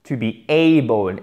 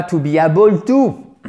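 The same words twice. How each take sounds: First: ABLE as a long "AY-bol"; open diphthong. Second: "able" as "a-bol", plain open "a", loud; French-style error. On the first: Teacher modelling for French learners, wide open diphthong. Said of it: "Faut vraiment ouvrir sa bouche". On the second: Teacher mocking the learners' mistake, loud French-style vowel. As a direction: mispronounce able with a French "a", rising on to. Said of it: "et non pas". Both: Shown as a demonstration.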